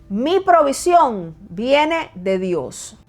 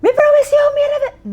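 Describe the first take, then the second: First: Con convicción. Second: A much higher, louder shout of the phrase; gritando. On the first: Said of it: "di esto en voz alta, con convicción". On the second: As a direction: yell it out to show what not to do. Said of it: "No es que tienes que gritar". (gritado, mucho más agudo y fuerte) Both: Shown as a demonstration.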